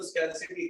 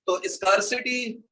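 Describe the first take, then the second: First: स्कैरसिटी with "skair" like scare; the right way, स्कैरसिटी as scare-city; सही उच्चारण स्कैरसिटी; correct pronunciation. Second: स्कार्सिटी said slowly with a broad "skar" as the wrong form; the mistaken स्कार्सिटी, drawn out; गलत उच्चारण स्कार्सिटी; wrong pronunciation. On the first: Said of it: "इसको स्कैरसिटी कहते हैं". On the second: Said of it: "नहीं बोलते, इसको स्कैरसिटी कहते हैं". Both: Shown as a demonstration.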